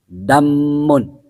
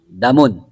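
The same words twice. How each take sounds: First: The m sound is held long and doubled. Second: The m sound is short and single. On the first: "dibaca dengan tasdid" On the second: "tanpa tasdid"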